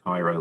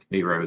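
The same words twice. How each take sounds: First: It is said like the Egyptian city. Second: It is said like the name of the syrup. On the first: This is how the city in Egypt is said. The speaker calls it wrong. "not Cairo, like the E- Egyptian city" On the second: This is how the town's locals say it. The speaker calls it right. "I know they pronounce it Cairo there"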